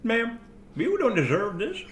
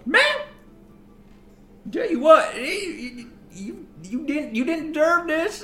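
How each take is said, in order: First: A hint of silly woman, slightly high; stupid woman's voice. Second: High, halting silly woman's voice; stupid woman's voice. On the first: Shown as a demonstration. Showing how the woman sounded, lightly put-on stupid voice. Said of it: "She sounded like this". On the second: Acted. Woman feeding ma'am pie, stupid high voice. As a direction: put on her stupid voice, pitched well up. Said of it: "her voice was so stupid".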